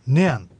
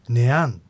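First: The first syllable is high in pitch. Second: The second syllable is high in pitch. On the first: It means 'that'. "そのといった時にはネアンと最初の音節が高く発音されていた" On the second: It means 'which'. "どのという意味ではネアン、つまりさっきの川にかかる橋の時と同じ流れ"

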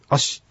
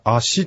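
First: The word ends with a swallowed consonant. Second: The word ends with a full vowel. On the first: The speaker calls it right. "ちょっと言葉を飲み込むような感じでしっと発音していただく" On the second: The speaker calls it wrong. "足と言わずに"

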